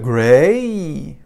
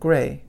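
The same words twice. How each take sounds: First: The vowel is drawn out through two sounds. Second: The vowel is short, one blended sound. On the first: The speaker calls it wrong. "we don't do the gray" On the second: The speaker calls it right. "It's much a shorter sound"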